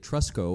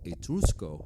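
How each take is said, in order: First: The name is said in a plain English accent. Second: The name is said in an imitated Italian accent.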